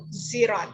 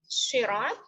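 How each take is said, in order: First: The word begins with a z sound. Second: The word begins with an s sound.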